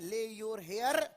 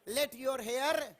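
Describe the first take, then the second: First: The first word has no final t sound. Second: The first word ends with a t sound. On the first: The speaker calls it wrong. "Sorry ले नहीं है" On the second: The speaker calls it right. "बल्कि ये लेट है"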